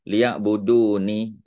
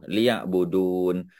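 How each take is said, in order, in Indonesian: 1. Kata ini diakhiri dengan vokal i. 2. Kata ini berakhir pada n tanpa vokal. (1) "kita tak adalah nak nak sebut liya'buduni" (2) "kita buat wakaf. Ya, kita sukunkan nun tu"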